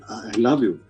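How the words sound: The voice sounds fearful and hesitant. "when you're afraid"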